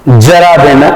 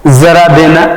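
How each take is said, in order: First: जरा in the phrase said "jara"; plain j sound. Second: जरा in the phrase said "zara"; nukta z sound. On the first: Teacher gives example meaning old age, j in जरा. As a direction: start जरा on a hard j. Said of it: "माने बुढ़ापा". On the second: Teacher gives example meaning a little, z in जरा. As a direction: buzz a z at the start of जरा. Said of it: "का अर्थ होता है थोड़ा सा". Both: Shown as a demonstration.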